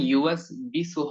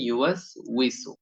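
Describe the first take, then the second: First: The second part starts with a b sound. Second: The second part starts with a w sound. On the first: The speaker calls it wrong. "তাহলে এখানে ইউএস বিসু হবে না" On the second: The speaker calls it right. "এখানে হবে ইউএস উইসু"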